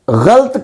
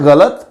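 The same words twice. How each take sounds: First: गलत as ghalt, one syllable; no vowel between ल and त in गलत; mispronunciation demo. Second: गलत as gha-lat; correct pronunciation. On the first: Teacher warning against the error, गलत as ghalt. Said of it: "गलत है". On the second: Teacher stating the right form, गलत as gha-lat. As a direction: give गलत two syllables, gha-lat. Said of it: "यानी दुरुस्त तलफ़ुज़ है". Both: Shown as a demonstration.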